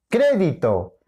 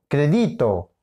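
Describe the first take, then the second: First: "crédito" stressed as CRE-di-to; stress on first syllable. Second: "crédito" wrongly stressed as cre-DI-to; stress on middle syllable. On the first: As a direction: lean hard on the CRE of "crédito". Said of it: "es crédito". («crédito» con acento en la primera: CRÉ-di-to) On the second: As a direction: move the accent of "crédito" onto DI. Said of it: "No, es crédito". («crédito» con acento en DI: cre-DÍ-to) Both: Shown as a demonstration.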